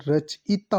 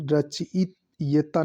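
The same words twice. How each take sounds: First: रचयिता said as "rach-itaa"; short "i" before taa in रचयिता, no ye; careful "rach-I-taa" for रचयिता; correct pronunciation. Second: रचयिता said as "rachit-yeta"; slow, halting "rachit-YE-ta" for रचयिता; wrong pronunciation. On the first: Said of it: "रचयिता होता है". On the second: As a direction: sound out रचयिता slowly with a "ye" before ta. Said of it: "रचयिता नहीं". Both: Shown as a demonstration.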